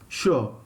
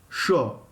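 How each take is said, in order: Both takes have the same delivery.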